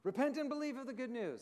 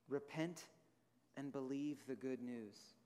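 First: It is said forcefully, as an exclamation. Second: It is said in a calm, plain reading.

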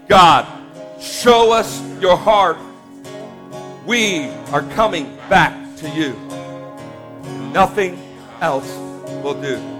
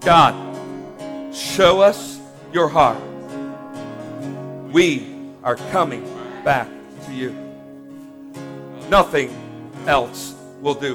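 First: It is said loudly. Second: It is said at normal volume.

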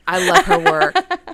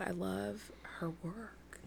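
First: It is said noticeably louder than before. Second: It is said at a normal, moderate volume.

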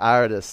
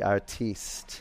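First: It is said the ordinary English way. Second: It is said with a fancy, foreign-sounding ending.

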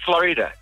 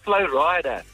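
First: It is said as one word, like the state. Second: It is said as two separate parts. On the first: The speaker calls it wrong. "it's Florida" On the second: The speaker calls it right. "no, buddy, it's Flo Rida"

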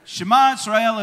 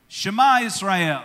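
First: It is said at a quicker pace. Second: It is said at a moderate pace.

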